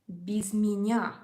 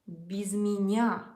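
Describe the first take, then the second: No difference in how they are said.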